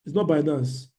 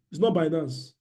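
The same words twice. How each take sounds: The two takes are said the same way.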